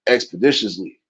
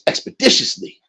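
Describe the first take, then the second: First: It is said in the speaker's own normal voice. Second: It is said in a put-on imitated voice.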